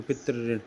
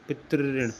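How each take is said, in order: First: Teacher repeats पितृ ऋण, rolled r; pitri rin. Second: पितृ ऋण said with a rolled double r, pitr-rrin; pitri rin. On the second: Teacher showing students how to say it, पितृ ऋण with rolled r. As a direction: roll the r in पितृ ऋण. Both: Shown as a demonstration. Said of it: "ऐसे बोलते हैं इसको".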